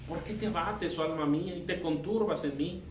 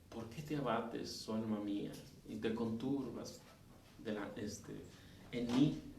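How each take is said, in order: First: It is said as an assertive reproach. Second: It is said in a timid, choked voice.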